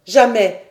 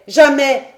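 First: First refusal, raised and loud; cry out. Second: Second refusal, higher and even louder; full shout. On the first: Paganel refusing the major's examination, crying out. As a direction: shout the first no at the doctor. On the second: Paganel refusing the major's examination, shouting louder. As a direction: explode on the repeated no. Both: Acted. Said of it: "s'écria-t-il".

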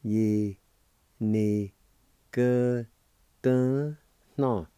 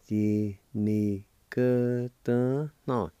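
First: Ye, Ni, cơ, tớ, no said apart, cơ and tớ stressed; syllable by syllable demo. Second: Yi ni cơ tớ no joined, very slow, stress on cơ; slow whole-word demo. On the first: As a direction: pause between each syllable. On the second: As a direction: glide the syllables together slowly. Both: Shown as a demonstration. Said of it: "pronounced like this".

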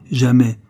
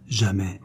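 First: "jamais" hit hard and loud; loud, final stress on "jamais"; emphatic repeat. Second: Said in the usual way. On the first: A narrator's reading. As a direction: drive "jamais" home with force.

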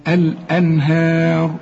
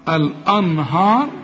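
First: الأنهار drawn out, light fronted vowels before a heavy ر. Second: الأنهار drawn out with dark, backed a-vowels; wrongly heavy vowels. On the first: Teacher correcting a student, light ه in الأنهار. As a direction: keep the ه thin in a slow الأنهار. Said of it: "إنما كل هي في القرآن مرققة". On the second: Teacher mimicking a student's error, wrongly heavy الأنهار. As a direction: say الأنهار slowly, thickening every vowel. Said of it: "الراء بس هي المفخمة". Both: Shown as a demonstration.

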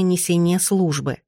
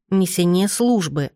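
First: Said in the usual way. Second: Slow, solemn quoting of mother; weighty and grand. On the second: A narrator's reading. Daughter quoting mother on father's duty, slow and weighty. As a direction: draw it out with heavy grandeur. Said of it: "будто это был золотой крест, невыносимо тяжёлый, но полный величия".

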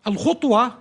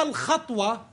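First: "الخطوة" pronounced khutwa, with u after خ; damma on the kha. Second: "الخطوة" pronounced khatwa, with a after خ; fatha on the kha. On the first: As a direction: teach "الخطوة" with a clear u in the first syllable. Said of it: "بضم الخاء". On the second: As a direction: teach "الخطوة" with a clear a in the first syllable. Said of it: "بالفتح". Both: Shown as a demonstration.

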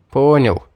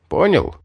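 First: Mildly perky answer; brisk, chipper. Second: "Понял" pitched high as a question. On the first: Pupil answers the mage's check, chipper. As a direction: answer readily, with a little lift. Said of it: "бодро ответил я". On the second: Mage checks his instructions got through, questioning. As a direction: ask "Понял" with a high peak, then a drop. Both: A narrator's reading.

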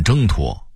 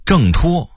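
First: Level first tone on 挣 in 挣脱; Beijing-style 挣脱 without a falling 挣; Beijing dialect reading. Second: Said in the usual way. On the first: Shown as a demonstration. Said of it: "北京话念". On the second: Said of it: "北京话念挣脱".

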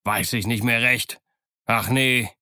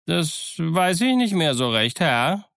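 First: Sarcastic echo in his own pitch; dry, mocking repetition. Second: High-pitched, hesitant sailor's answer; higher, uncertain servile reply; evasive sailor. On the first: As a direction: throw the evasive answer back at him. Silver throws Morgan's answer back. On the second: Sailor evasively answering his questioner. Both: A narrator's reading.

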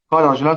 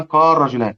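First: Said in the usual way. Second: قال رجلان with lam turned into a doubled r; assimilated lam. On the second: Shown as a demonstration. Teacher shows students the merged form, assimilated lam into r. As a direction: say قال رجلان as "qar-rajulan". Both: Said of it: "فإنها تضغم حيث وقعت".

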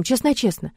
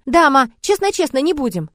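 First: A man's playful mock promise, voiced lightly; father making a promise to mom. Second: Put-on higher child's eager promise. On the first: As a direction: lightly promise like a guilty grown-up. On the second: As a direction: echo the dad like a little boy. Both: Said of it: "Костик повторяет".

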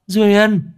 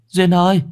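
First: Very high, loud desperate shout of the name; shrill cry. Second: High, loud panicked call across the house; frantic call. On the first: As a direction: scream her name in panic. (hét tên thất thanh) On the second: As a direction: cry out her name in alarm. (gọi thất thanh, cao và to) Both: A narrator's reading. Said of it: "Bà rú lên".

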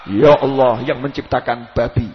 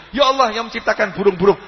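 First: Low, slow mock supplication; mock prayer. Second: Prayer in the usual pitch, evenly paced; proper prayer. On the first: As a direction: intone an improper prayer with exaggerated solemnity. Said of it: "Coba jenengan duduk di masjid doa". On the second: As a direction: demonstrate a respectful supplication. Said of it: "Anda boleh berdoa". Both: Shown as a demonstration.

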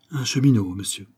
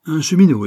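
First: Said in the usual way. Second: Higher, louder burst of disbelief; indignant echo. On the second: A narrator's reading. Banker scorns his secretary's news, indignant and loud. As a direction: throw the word back with annoyance. Banker echoes, annoyed at interruption.

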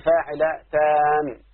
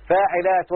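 First: فاعلتان said slowly with a long final taan; added long ending. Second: Said in the usual way. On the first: Shown as a demonstration. Teacher showing students the altered foot, lengthened ending. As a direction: draw out the last alif of فاعلتان before the n. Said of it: "أقلب نون ألف وأزود إيه نون". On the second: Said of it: "زيادة الساكن فقط".

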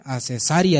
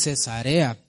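First: "Cesarea" said as Cesaria, with an i; mispronounced Cesarea. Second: "Cesarea" said slowly, ending re-a; corrected Cesarea. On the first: Retold or imitated. Preacher imitating how some brothers say "Cesarea", ending mispronounced as ria. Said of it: "dicen algunos hermanos". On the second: Shown as a demonstration. Preacher correcting some brothers' "Cesarea", slow pronunciation with re-a ending. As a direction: say "Cesarea" slowly with a clear e before the last a. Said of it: "dicen algunos hermanos, ¿verdad?".

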